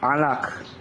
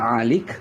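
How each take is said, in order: First: The second vowel is an a sound. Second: The second vowel is an i sound. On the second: This is the Yemenite reading tradition. "cara orang Temoni membaca itu seperti Alik"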